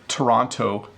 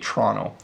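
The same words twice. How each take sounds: First: Every syllable is pronounced fully and clearly. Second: It is said fast with syllables squeezed together. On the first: "I pronounce it really clearly" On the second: "when I speed up"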